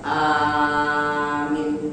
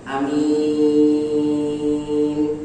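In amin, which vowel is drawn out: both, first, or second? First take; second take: first; second. First: The first vowel is long, the ending short. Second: The first vowel is short, the ending long. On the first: "Hamzahnya panjang, mimnya pendek" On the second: "boleh dibaca hamzahnya pendek, mimnya panjang"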